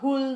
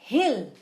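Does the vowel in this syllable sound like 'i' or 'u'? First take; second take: u; i. First: The syllable is said with a 'u' vowel. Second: The syllable is said with an 'i' vowel. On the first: The speaker calls it wrong. "not hul" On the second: The speaker calls it right. "here it's hill"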